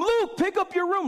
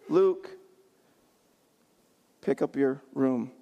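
First: It is screamed in a loud voice. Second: It is said in a calm, normal voice.

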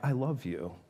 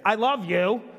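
First: It is said in a warm, sincere tone. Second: It is said in a tone that contradicts the words. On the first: The speaker truly means the words. The speaker calls it right. "and she goes, "Ah."" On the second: The words and the feeling behind them do not match. The speaker calls it wrong. "What mixed message?"

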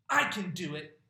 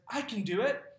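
First: It sounds stubborn and insistently demanding. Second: It sounds cheerful and confidently independent. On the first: The child refuses help and wants control. "that's the kind of tone that says, give me that jar of peanut butter" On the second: The child is proudly learning new skills. "because they're developing the skills and independence needed to survive in this world"

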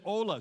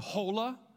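First: The word begins directly with the vowel sound. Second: The word begins with an audible h sound. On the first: The speaker calls it right. "So the H is silent" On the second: The speaker calls it wrong. "You don't say hola"

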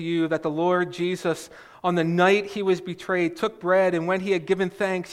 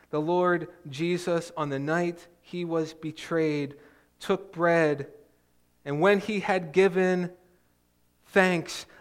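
First: The passage is read quickly. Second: The passage is read slowly. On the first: The familiar words are read without reflection. The speaker calls it wrong. "that's exactly how I read this. We read it fast" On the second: The words are read with attention to their meaning. The speaker calls it right. "let's think about what these words are saying"

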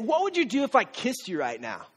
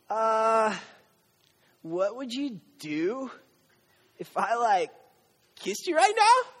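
First: It sounds bold and confident. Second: It sounds hesitant and nervous.

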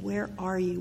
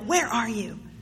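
First: It is said in a gentle, tender tone. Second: It is said in a harsh, demanding tone.

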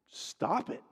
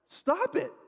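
First: It is said at a normal, quieter volume. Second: It is said louder, with rising insistence.

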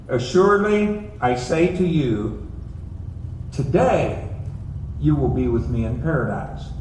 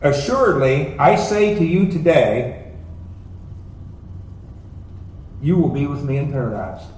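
First: The pause comes right before 'today'. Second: The pause comes right after 'today'.

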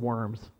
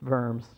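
First: It sounds like the English word worms. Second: It is said with a German-style pronunciation. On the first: This is the instinctive way to read it. The speaker calls it wrong. "I want to say Worms" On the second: This is how the place is actually called. The speaker calls it right. "but it's Worms"

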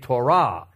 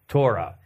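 First: The stress is on the last syllable. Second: The stress is on the first syllable.

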